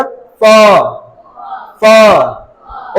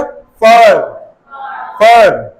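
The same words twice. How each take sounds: First: British फ with long vowel and silent R; British non-rhotic demonstration of फ; British pronunciation. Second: American फर with curled R; American rhotic demonstration of फर; American pronunciation. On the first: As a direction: model the British word, dropping final R. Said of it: "आर pronounce नहीं करते हैं". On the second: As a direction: roll the tongue back for American final R. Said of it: "American के time पे कैसा हो जाएगा". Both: Shown as a demonstration.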